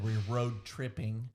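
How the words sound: Every sound is pronounced carefully and fully. It is the refined way of speaking. "you pronounce things correctly and fully"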